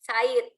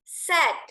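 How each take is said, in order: First: The vowel is split like the name sa-id. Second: The vowel is a single plain e sound. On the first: The speaker calls it wrong. "Said itu nama orang" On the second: The speaker calls it right. "Langsung E"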